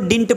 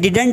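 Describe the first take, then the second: First: It is pronounced like 'dint'. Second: It is pronounced like 'didunt'. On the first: The speaker calls it right. "इसको डिंट पढ़ेंगे" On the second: The speaker calls it wrong. "ये डिडंट नहीं पढ़ेंगे"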